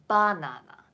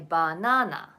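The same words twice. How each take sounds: First: The middle syllable is not emphasized. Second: The middle syllable is emphasized. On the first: This is the standard Japanese way. "So in standard Japanese" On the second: This is the Osaka way. "the middle one has the uh, emphasis"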